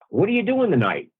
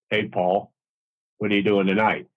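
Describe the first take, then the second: First: It is said with lively, varied emphasis. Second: It is said in a flat, boring way.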